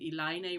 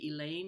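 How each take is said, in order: First: The name is said with a Portuguese pronunciation. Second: The name is said with an English pronunciation. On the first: "I'm using um, Elaine ... the Portuguese pronunciation" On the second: "we would say Elaine in English"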